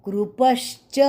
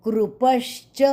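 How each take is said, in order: Both takes have the same delivery.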